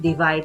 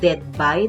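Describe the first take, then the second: First: The ending of the phrase is left off. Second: The middle syllables are squeezed out of the phrase. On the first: "Nawala naman yung dulo" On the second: "Sinasabi dead by, dead by. Parang may namatay"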